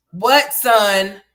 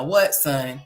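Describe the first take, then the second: First: Called out loud across the house; calling out. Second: Said in the usual way. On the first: Real, not acted. Mother calling out to her son who wants something. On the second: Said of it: "calling to child".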